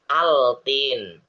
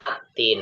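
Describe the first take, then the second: First: The l sound is clearly pronounced before t. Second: The l sound merges into a doubled t. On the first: The speaker calls it wrong. "nggak pakai al, nggak gini" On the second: The speaker calls it right. "langsung dimasukkan ke huruf yang berikutnya"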